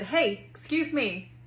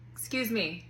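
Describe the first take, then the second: First: Pointed excuse me. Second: Said in the usual way. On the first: Retold or imitated. Mom demanding kids' attention.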